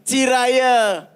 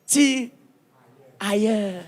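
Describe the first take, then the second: First: Tirailleurs drawn out slowly, falling. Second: Tire and ailleurs split apart by a pause; split into two words. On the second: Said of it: "les Africains ont cru que c'est un mot". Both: Shown as a demonstration.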